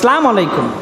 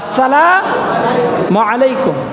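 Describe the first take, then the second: First: The greeting is clipped, dropping its opening syllable. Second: The greeting is said in full with its opening. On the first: The speaker calls it wrong. "কয় সালাম আলাইকুম" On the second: The speaker calls it right. "রাসূল বলেছেন সালাম দিবে ভেবে আসসালামু আলাইকুম"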